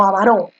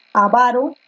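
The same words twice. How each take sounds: First: Avaró stressed on the last syllable, a-va-RÓ; wrong stress. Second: Avaro stressed on VA, a-VA-ro; correct stress. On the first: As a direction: hit the RÓ of avaró. (avaró con fuerza en RÓ) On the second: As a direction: say avaro leaning on VA. (avaro con fuerza en VA) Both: Shown as a demonstration. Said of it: "Tú dices avaro".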